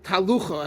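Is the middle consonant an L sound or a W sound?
L sound. The middle consonant is a clear L sound. "what was called talucha"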